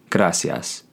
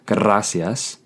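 First: The R is a single quick tap. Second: The R is rolled like a double R. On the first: The speaker calls it right. "but rather gracias" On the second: The speaker calls it wrong. "this is not a double R, so you would not pronounce it gracias"

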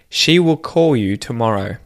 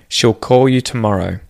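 First: 'Will' is said in full as its own word. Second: 'Will' is contracted onto the word before it. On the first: "the first sentence" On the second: "say the contracted form"

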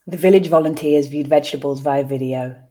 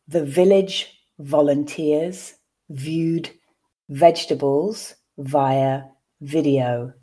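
First: The sentence is read at a natural speed. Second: The sentence is read slowly and carefully. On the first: "I'll then read once again at a more natural pace" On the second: "I will read once slowly for you to grasp the words"

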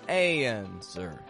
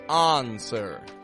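First: The first vowel glides through a y-like sound into the N. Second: The first vowel is open with no glide before the N. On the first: "The American accent makes this subtle transition that sounds like y, between the A and the N" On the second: "we're not giving it an on, answer, answer. That's kind of closer to the British accent"

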